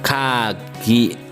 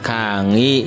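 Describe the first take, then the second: First: The middle consonant is a hard g. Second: The middle consonant is a nasal ng. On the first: "ada kata kagi" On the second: "Boleh diucapkan kangi"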